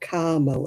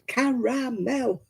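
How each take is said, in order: First: The word is said in an American way. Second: The word is said in a British way. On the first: The speaker calls it wrong. "as Americans always say" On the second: The speaker calls it right. "there's an A in it. It's caramel"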